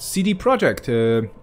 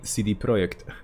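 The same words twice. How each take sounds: First: The name is said with English pronunciation. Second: The name is said with Polish pronunciation.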